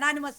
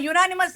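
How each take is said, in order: First: The word begins with an 'eh' sound. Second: The word begins with a 'yoo' sound. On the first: The speaker calls it wrong. "పోయినసారి కూడా ఎనానిమస్ అన్నారు" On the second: The speaker calls it right. "యునానిమస్ అనండి"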